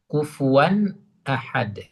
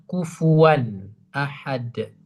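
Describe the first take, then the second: Both takes have the same delivery.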